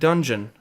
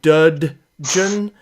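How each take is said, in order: First: The name flows smoothly without emphasis. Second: The opening D sound is emphasized. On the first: "just kind of roll off your tongue" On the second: "Is there an emphasis on the duh duh"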